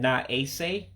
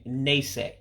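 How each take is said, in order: First: Two separate words, the vowel kept. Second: One shortened word, the vowel dropped. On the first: "instead of saying na ase" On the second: "you're just saying nase, like a contraction"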